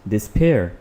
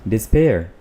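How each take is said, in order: Both takes have the same delivery.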